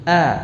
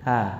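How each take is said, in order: First: The vowel starts with a clear, crisp onset. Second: The vowel starts with a softened, eased onset. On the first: "Kita baca dengan jelas" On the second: "Kalau dibaca dengan tashil bagaimana?"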